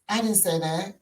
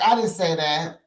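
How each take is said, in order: First: It is said in a put-on Stanberry voice. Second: It is said without the Stanberry voice.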